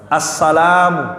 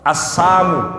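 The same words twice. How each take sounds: First: The greeting word is said in its full form. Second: The greeting word is said with a sound changed. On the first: It wishes peace on the listener. The speaker calls it right. "Yang benarnya apa?" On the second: It wishes death on the listener. The speaker calls it wrong. "Dia bilang apa?"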